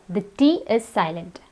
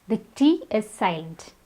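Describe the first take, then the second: Both takes have the same delivery.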